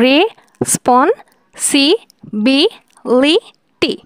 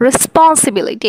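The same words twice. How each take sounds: First: responsibility said very slowly, six separate beats; syllables drawn out. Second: Said in the usual way. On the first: Shown as a demonstration. Teacher counting six syllables, very slow. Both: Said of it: "এটা হচ্ছে ছয় সিলেবলের".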